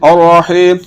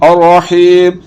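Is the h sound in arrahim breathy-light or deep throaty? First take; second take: deep throaty; deep throaty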